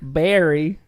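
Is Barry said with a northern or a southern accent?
southern. It is said with a southern US accent.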